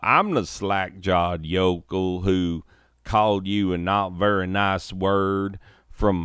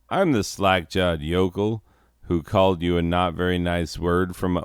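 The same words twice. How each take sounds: First: It is spoken with a country twang. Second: It is spoken without a country twang.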